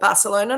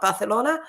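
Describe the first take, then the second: First: The c is said as a plain s sound. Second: The c is said as a lisped th sound. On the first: It is said without the royal lisp. "they tend not to lisp, so they call it Barcelona" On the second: It is said with the royal lisp. "not Barcelona"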